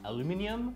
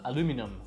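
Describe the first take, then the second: First: It is said in a British accent. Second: It is said in an American accent. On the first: "chez les Anglais deviendra aluminium" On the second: "chez les Américains ce sera aluminum"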